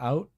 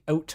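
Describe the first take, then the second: First: The vowel is standard, not raised. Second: The vowel is raised, Canadian style. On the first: "as opposed to out" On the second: "I think out might be part of it too"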